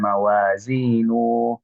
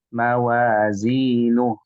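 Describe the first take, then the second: First: The final vowel is drawn out long. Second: The final vowel is cut short. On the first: The speaker calls it wrong. "di sini tidak panjang, bukan mawazinu" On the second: The speaker calls it right. "maka dibacanya"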